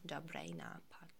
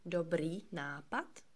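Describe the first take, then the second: First: The first word ends in a thick 'ay' sound. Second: The first word ends in a long 'ee' vowel. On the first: "with this typical Czech accent, like if you had a dumpling or a chewing gum in your mouth" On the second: "instead of saying dobrý nápad"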